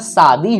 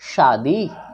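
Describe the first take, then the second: First: The word begins with a plain 's' sound. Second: The word begins with a 'sh' sound. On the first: The speaker calls it wrong. "इसका मतलब आप दंत स का उच्चारण कर रहे हैं" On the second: The speaker calls it right. "तालव्य श आकार द दीर्घ ईकार, तब तो हुआ भाई शादी"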